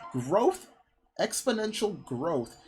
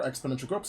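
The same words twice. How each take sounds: First: Growth with a clear TH ending; corrected growth. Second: Growth ending in a P sound, like "grope"; slip on growth. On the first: Player correcting the slip, growth said carefully with TH. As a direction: land the TH on growth, pointedly. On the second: Player fumbling exponential growth, growth slipped into "grope". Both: Real, not acted. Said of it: "Since this is growth again, oh my god".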